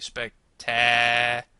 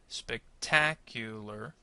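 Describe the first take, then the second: First: The stressed syllable is stretched out exaggeratedly long. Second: The stressed syllable is lengthened naturally. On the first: The speaker calls it wrong. "how can we do that without sounding kind of crazy? ... am I going to say spectacular? Well, no" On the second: The speaker calls it right. "if you said ta, spectacular, then you're correct"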